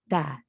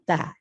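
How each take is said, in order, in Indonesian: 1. Suku kata ini terdengar ringan dan terbuka. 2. Suku kata ini terdengar ringan dan terbuka.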